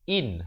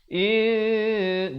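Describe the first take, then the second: First: The n is pronounced clearly. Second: The n is hidden, nasalized for two counts. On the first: "Asalnya in" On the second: "Tapi bila datang ta, in, dua harakat"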